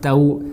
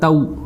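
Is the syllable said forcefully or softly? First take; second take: softly; forcefully. First: The syllable is said gently and softly. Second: The syllable is said with force and harshness. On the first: The speaker calls it right. "हमने उसको नरमी से अदा करना है।" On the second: The speaker calls it wrong. "इसको हमने ऐसा नहीं पढ़ना"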